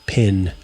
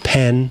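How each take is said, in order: First: The vowel is a closer 'ih' sound. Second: The vowel is an open 'eh' sound. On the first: "I would say pin" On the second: "And pen"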